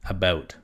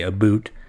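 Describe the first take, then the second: First: It is said in a plain, neutral accent. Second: It is said in an exaggerated Canadian accent.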